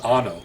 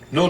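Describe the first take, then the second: First: Both syllables are said, starting with a. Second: Only the second syllable is said, quickly. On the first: "the word for for yes in Czech is ano" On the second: "when they're speaking fast, they go no"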